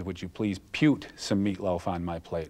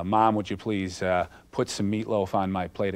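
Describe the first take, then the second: First: "pute" said as "pyoot", rhyming with cute; Axel's odd pronunciation. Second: Said in the usual way. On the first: Retold or imitated. Daughter imitating Axel's quirky "pute" pronunciation. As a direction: say "pute" like "pyoot" instead of "put". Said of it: "He had this way of saying things". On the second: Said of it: "instead of saying".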